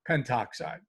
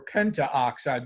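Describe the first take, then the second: First: No a sound comes before oxide. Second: An a sound comes before oxide. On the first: The speaker calls it right. "we'd just say pentoxide" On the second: The speaker calls it wrong. "if it were pentaoxide"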